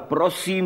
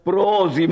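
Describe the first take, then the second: First: The middle consonant is a hissing s sound. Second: The middle consonant is a buzzing z sound. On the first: "Výzlovoval prosím jako prozím" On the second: "Měl takovou legrační výslovnost"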